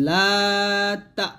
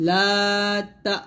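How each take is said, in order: Both takes have the same delivery.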